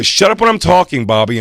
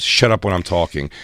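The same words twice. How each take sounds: First: Louder, higher mock fury; staged angry yell. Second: Said in the usual way. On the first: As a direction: snap it at him in a fake fight. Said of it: "I go". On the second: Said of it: "she said to this guy a thousand times".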